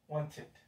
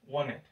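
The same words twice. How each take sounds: First: It is said in a non-American accent. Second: It is said in an American accent.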